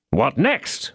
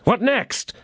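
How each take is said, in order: First: Said in the usual way. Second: Second 'What next?' pitched much higher; impatient cry. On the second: A narrator's reading. D'Artagnan urging the host on, crying out. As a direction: cry it out the second time, pressing hard. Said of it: "cried D'Artagnan".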